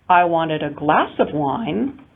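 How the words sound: The word glass carries the main stress. It was a glass, not a bottle. "Different if I place the prominence on glass"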